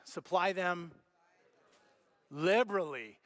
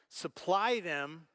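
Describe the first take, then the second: First: Supply them, then a pause before liberally; pause, then land liberally with weight; stressed liberally. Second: Supply them drawn out slowly with rising weight; emphatic reading. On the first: Pastor having the congregation repeat the verse, with weighted stress. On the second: Pastor stressing the key word for the congregation, slowly. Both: Shown as a demonstration. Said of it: "say the word".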